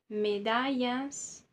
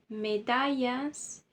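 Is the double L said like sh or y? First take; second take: y; y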